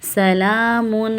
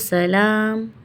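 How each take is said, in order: First: The word ends with an added -un ending. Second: The word ends on a bare m sound. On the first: The reader continues without stopping. "और अगर नहीं रुक रहे तो सलामुन हिया" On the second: The reader stops at this point. "अगर हम रुक रहे हैं यहाँ तो सलाम"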